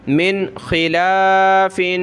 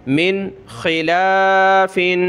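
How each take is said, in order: Both takes have the same delivery.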